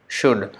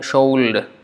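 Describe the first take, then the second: First: The word is said with a silent L. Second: The word is said with the L sounded. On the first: The speaker calls it right. "the sound is like S H U D" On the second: The speaker calls it wrong. "for a person who does not know how to pronounce it, he may say"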